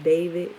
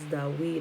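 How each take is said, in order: First: The name is said with a V sound. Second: The name is said without a V sound.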